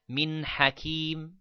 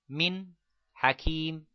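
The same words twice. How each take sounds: First: The two words run together without a pause. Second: There is a pause between the two words. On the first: The speaker calls it right. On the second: The speaker calls it wrong.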